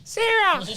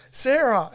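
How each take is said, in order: First: Very high toddler shout, imitated; toddler calling out. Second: Raised, higher calling voice; calling next room. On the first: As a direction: parrot a parent's call in a squeaky child's voice. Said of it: "you'll just hear from three rooms over". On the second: Retold or imitated. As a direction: call a partner from another room. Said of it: "if I'm in another room".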